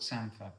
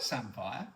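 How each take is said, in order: First: "samphire" said as SAM-fer; local pronunciation. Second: "samphire" said as SAM-fire; spelling pronunciation. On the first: Telling how locals say it, SAM-fer pronunciation. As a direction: let "samphire" end on a weak -fer. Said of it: "people call it samphire". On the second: Pointing out the spelling, SAM-fire pronunciation. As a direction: read "samphire" as spelt, ending -fire. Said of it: "It's spelt samphire". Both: Shown as a demonstration.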